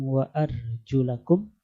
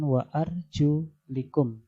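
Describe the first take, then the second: First: The vowel after arjul is a. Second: The vowel after arjul is i. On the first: The feet are washed, like the face and hands. "bacaan dengan nasab" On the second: The feet are wiped, as over leather socks. "dibaca jar"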